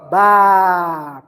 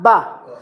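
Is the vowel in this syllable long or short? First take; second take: long; short. First: The vowel is drawn out long. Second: The vowel is short and clipped. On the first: "With long vowel alif, ba. Prolong" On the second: "Without this alif, you read the letter as ba"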